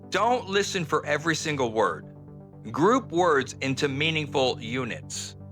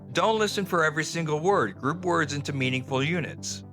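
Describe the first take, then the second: First: It is spoken slowly and deliberately. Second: It is spoken at fast, natural speed. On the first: "I'm deliberately speaking slowly so you understand this" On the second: "normal native English, it would sound more like"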